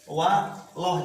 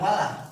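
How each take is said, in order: First: The 'l' of Allah sounds thick and heavy. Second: The 'l' of Allah sounds thin and light. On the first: The speaker calls it right. "tebal ke lafaz loh" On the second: The speaker calls it wrong. "jangan walah"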